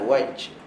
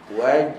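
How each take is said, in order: First: The final consonant sounds like a voiceless ch. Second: The final consonant sounds like a voiced j. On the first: The speaker calls it wrong. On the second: The speaker calls it right.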